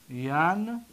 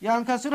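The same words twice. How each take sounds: First: ینکسر drawn out as yan, long pause, ka-si-ru; syllable by syllable. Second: Said in the usual way. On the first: Shown as a demonstration. Teacher breaking down the present verb, syllable by syllable. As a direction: sound out ینکسر slowly with a long gap.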